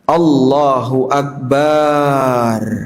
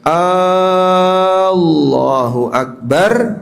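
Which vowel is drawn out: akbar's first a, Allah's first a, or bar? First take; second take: bar; Allah's a. First: The final syllable bar is drawn out long. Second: The first vowel of Allahu is drawn out long. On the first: It says God is a drum. "Bar dibaca panjang" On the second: It asks whether God is great. "A-nya apa? Panjang"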